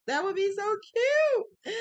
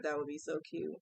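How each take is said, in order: First: Much higher and louder, slower squeal on cute; excited high gush. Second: Said in the usual way. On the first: Real, not acted. Crafter imagining a Christmas rug gift, gushing with excitement. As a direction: gush over the idea like a delighted fan. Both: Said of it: "I'm getting excited".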